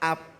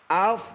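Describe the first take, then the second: First: The word ends with a b sound. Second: The word ends with an f sound. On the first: The speaker calls it wrong. "Itu poa ab namanya" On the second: The speaker calls it right. "Af bukan ab"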